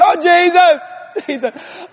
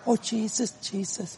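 First: It is said loudly, as a holler. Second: It is said calmly, like an ordinary prayer.

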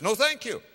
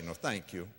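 First: It sounds bold and firm, with no hesitation. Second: It sounds hesitant, as if open to persuasion.

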